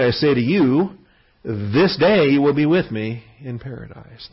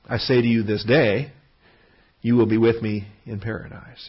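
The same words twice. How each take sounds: First: The pause comes before "this day". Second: The pause comes after "this day".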